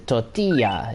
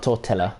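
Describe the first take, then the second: First: The double L sounds like a Y. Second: The double L sounds like an L. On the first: The speaker calls it right. "you learn that double L sound is a, is a Y. It's a tortilla" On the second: The speaker calls it wrong. "It's not a tortilla"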